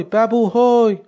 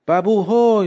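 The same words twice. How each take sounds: First: Calling again higher and louder across the yard. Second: A higher call across the yard. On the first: Old woman calls her son again from the doorway, calling louder. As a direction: shout the name, pushing it further. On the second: Old woman calls her son from the doorway, calling out. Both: Acted. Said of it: "داد زد".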